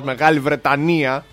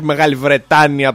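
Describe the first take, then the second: First: The stress falls on the syllable 'ni'. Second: The stress falls on the syllable 'ta'. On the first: The speaker calls it right. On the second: The speaker calls it wrong.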